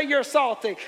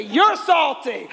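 First: Loud pointed call-out; loud finger-pointing accusation; shouting. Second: Drawn-out slow accusation; slow, drawn-out teasing accusation. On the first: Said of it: "Point at him". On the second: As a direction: stretch each word out slowly. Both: Shown as a demonstration.

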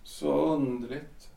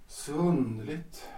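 First: Slow, soft "Så underligt" rising at the end; a husband left alone, bewildered; stunned musing. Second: Slow and soft again, "underligt" drifting up; a stunned husband talking to himself; dazed echo. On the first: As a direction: murmur it to yourself, dazed. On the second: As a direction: repeat it quietly, lost in thought. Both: Acted. Alone after wife leaves.

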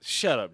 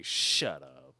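First: Said in the usual way. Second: Low, gruff quoted line; movie quote. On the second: Retold or imitated. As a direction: growl it like the movie. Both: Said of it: "To echo the movie".

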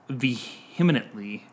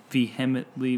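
First: "vehemently" garbled as vee-HIM-uh-nunt-lee; stumbled pronunciation. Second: Second try at "vehemently", as vee-HEM-ut-lee; "vehemently" with a stressed HEM and no extra n; stumbled pronunciation. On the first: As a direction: slowly fumble "vehemently", adding an extra n syllable. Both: Real, not acted. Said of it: "I don't know how to say that word".

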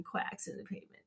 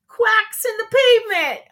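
First: Whispered to herself. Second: High, loud punchline. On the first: Real, not acted. Host repeating the punchline softly to herself, whispering. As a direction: breathe quacks in the pavement as a private whisper. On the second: Acted. Host reads the duck joke answer to listeners, high and loud. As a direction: land the pun with a big high finish.

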